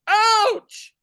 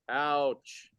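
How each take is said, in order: First: The word is yelled loudly. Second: The word is said calmly.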